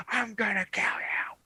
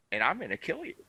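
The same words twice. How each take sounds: First: Higher, over-the-top mock tough guy threat; mock wild threat. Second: A calm, collected threat, not shouted; calm, cool threat. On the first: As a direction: ham up a raging tough guy. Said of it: "And it wasn't like". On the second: Retold or imitated. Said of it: "cool, calm demeanor".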